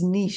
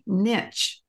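First: It is said with the French pronunciation. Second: It is said with the common American pronunciation. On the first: The speaker calls it right. "It is a French word, and it is niche" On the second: The speaker calls it wrong. "most Americans say niche"

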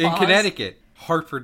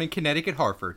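First: A short pause separates Connecticut from Hartford. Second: Connecticut runs straight into Hartford without pausing. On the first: The speaker calls it right. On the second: The speaker calls it wrong.

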